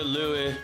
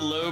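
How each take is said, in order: First: The vowel sounds softer, like 'oo'. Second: The vowel sounds like English 'oh'. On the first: The speaker calls it right. "the German pronunciation ... it's like the Lue" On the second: The speaker calls it wrong. "I always called it the Low because that's what I had in World of Tanks"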